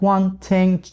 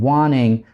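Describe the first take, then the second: First: The t is clearly pronounced after the n. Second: The t merges into the n and disappears. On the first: "через true t" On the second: "потому что н и т на стыке это один и тот же звук"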